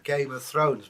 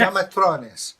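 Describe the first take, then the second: First: Said in the usual way. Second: Put-on loud, high Eastern European accent; mangled Eastern European pronunciation. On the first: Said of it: "it meant Game of Thrones". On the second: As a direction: repeat it emphatically in a thick Eastern European accent. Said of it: "an Eastern European bloke".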